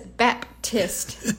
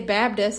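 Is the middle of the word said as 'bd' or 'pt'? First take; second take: pt; bd. First: The middle is a clear 'p' then 't'. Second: The middle is a softened 'b' then 'd'. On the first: It sounds like a Northerner's speech. "there's no one I know who says Baptist. Like, I'll sound like a Yankee if I say that" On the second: It sounds like local Southern speech. "I say Baptist"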